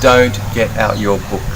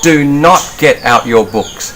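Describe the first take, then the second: First: It is said casually, without extra force. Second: It is said forcefully, with strong emphasis.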